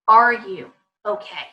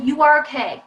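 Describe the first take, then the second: First: "Are you okay" slower, as an open question; asking. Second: "You are okay" raised and pushed as a statement; telling, not asking. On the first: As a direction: slowly ask "Are you okay", handing it over. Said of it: "putting the ball back in their court". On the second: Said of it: "Instead of". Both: Shown as a demonstration.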